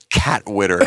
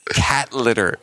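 First: The second word begins with a W sound. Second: The second word begins with an L sound. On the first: The speaker calls it wrong. "And he would go" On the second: The speaker calls it right. "And she would say"

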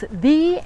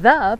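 First: The vowel is a long 'ee' sound. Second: The vowel is a short 'uh' sound. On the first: The next word starts with a vowel sound. "the before a word that starts with a vowel sound" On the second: The next word starts with a consonant sound. "the before a word that starts with a consonant sound"

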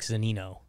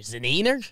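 First: The name ends in an 'oh' sound. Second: The name ends in an 'er' sound. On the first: The speaker calls it right. "No, Mike Zunino" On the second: The speaker calls it wrong. "Am I saying that right?"

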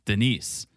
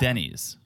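First: It sounds like the woman's name Denise. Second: It sounds like the man's name Denny. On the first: The speaker calls it wrong. "You're saying it like a woman's first name" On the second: The speaker calls it right. "It's a man's first name, Denny"

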